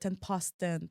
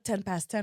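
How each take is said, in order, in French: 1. Il est prononcé avec un accent anglais britannique. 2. Il est prononcé avec un accent anglais non britannique. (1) "on va parler en anglais British" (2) "on va pas dire"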